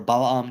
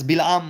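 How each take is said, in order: First: The first vowel is not an 'ee' sound. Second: The first vowel is an 'ee' sound.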